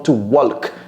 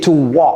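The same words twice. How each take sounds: First: The L sound in walk is pronounced. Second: The L sound in walk is silent. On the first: The speaker calls it wrong. "J'entends très souvent to walk" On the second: The speaker calls it right. "Non, c'est to walk. Ne prononcez pas le L"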